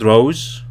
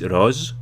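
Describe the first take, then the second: First: It sounds like the common name Rose. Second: It sounds different from the common name Rose. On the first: The speaker calls it wrong. "It's not Rose, the name Rose" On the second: The speaker calls it right. "it's Rose. Making sure I get the pronunciation correct"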